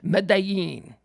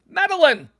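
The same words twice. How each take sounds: First: The name is said with Spanish-style sounds. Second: The name is said with English reading sounds. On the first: The speaker wants to sound knowledgeable. "I pronounce it like a, like a like a news anchor" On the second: It is how the name reads to an English speaker. "That's what it reads. I'm an English speaker"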